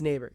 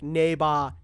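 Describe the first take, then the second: First: It is said plainly, with no foreign accent. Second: It is said with a heavy foreign accent. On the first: The speaker calls it right. "they're all correcting him" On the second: The speaker calls it wrong. "because he has that accent, he goes like a neighbor"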